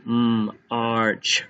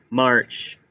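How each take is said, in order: First: M held alone, then Arch; tapped-out sounds. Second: Said in the usual way. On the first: Shown as a demonstration. Teacher tapping march out again, segmented. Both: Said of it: "Tap that out again".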